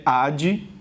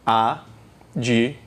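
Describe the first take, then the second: First: Advogado in four separate beats, ad... vo... ga... do; correct syllable division. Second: Advogado in five separated beats, A... di... vo... ga... do; low, slow count through Advogado with "di" standing alone; five syllables. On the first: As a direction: keep the "d" closing the first syllable of advogado. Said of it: "o correto é advogado". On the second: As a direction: split Advogado wrongly as A-di-vo-ga-do. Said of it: "Cinco sílabas". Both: Shown as a demonstration.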